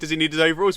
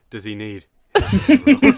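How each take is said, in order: First: It is said in a plain, innocent tone. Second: It is said in a saucy, suggestive tone.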